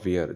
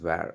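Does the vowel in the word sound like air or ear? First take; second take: ear; air. First: The vowel sounds like the word ear. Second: The vowel sounds like the word air. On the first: The speaker calls it wrong. "It's not வியர்" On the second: The speaker calls it right. "It's வேர்"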